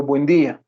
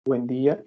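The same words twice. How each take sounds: First: A booming good-morning the son calls shouting; father's loud morning hello; loud greeting. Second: Said in the usual way. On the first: Retold or imitated. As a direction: belt out the greeting. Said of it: "¿Pero por qué me gritas?". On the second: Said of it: "Y me saluda".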